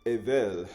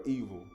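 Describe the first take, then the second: First: Evel said as "EH-vel" with a short e; Hebrew pronunciation. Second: Evil said as "EE-vil", the English word; English pronunciation. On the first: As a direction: say evel as "eh-vel", not evil. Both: Shown as a demonstration. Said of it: "or evil".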